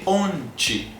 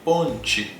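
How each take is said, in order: First: The final syllable is pronounced like 'ti'. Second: The final syllable is pronounced like 'ti'.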